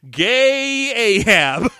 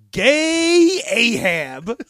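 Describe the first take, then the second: First: Slow, higher and louder "Gay Ahab" with a rising end; drawn-out name. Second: Slow, stressed "Gay Ahab" with a rising end; drawn-out name. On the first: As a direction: stretch out "Gay Ahab" with grand emphasis. Presenting the name again. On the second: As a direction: stretch "Gay Ahab" out slowly and proudly. Presenting a fake Wookiee name. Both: Pretend.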